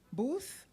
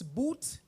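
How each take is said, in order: First: The name ends with a th sound. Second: The name ends with a plain t sound. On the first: The speaker calls it right. "Did I pronounce it correctly, sir? Booth? Very good" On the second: The speaker calls it wrong. "he often gets Boot instead of Booth"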